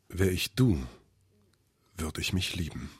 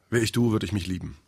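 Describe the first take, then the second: First: It is read out with heightened dramatic expression. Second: It is read out plainly, without drama.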